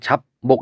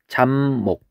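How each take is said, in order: First: The syllables are separate, keeping the p sound. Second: The syllables are joined, with p becoming m. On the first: "하나씩 발음할 때는 잡목 이렇게 되지만" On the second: "같이 발음할 때는 잡목 이렇게 발음이 되죠"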